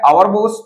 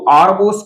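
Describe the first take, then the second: First: 'Our' is said as two syllables, like 'hour'. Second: 'Our' is said as one syllable, like 'are'. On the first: This is an old-fashioned way of speaking. "ये थोड़ा सा पुरानी type की अंग्रेजी लगती है" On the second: This is the modern way of speaking. "O यू आर आवर की जगह यदि हम आर बोलें तो यह आज आजकल मॉडर्न"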